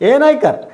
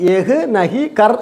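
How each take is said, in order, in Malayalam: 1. വാക്കുകൾ ചുരുങ്ങി ഒന്നിച്ചു ചേർന്നാണ് ഉച്ചരിക്കുന്നത്. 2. ഓരോ വാക്കും എഴുതിയിരിക്കുന്നതുപോലെ പൂർണ്ണമായി ഉച്ചരിക്കുന്നു. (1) "പറയുമ്പോൾ ഏ നൈക്കർ" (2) "എഴുതുമ്പോൾ ഏഹ് നഹി കർ എന്ന് എഴുതും. അതുപോലെ വായിക്കരുത്"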